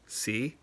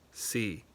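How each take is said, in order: First: The pitch rises to a high level. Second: The pitch stays level in the middle. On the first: "high rising" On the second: "mid flat"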